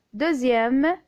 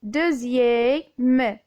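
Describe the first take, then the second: First: Said in the usual way. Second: "deuxième" slowly split as deu-ziè-me, x as z; syllable by syllable. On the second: Shown as a demonstration. (« deuxième » découpé lentement en deu-ziè-me) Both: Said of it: "on dit deuxième".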